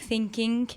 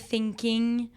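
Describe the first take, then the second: First: The word ends with a k sound. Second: The word ends with an ng sound. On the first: "ça devient des k" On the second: "ce sera pas thinking ou talking"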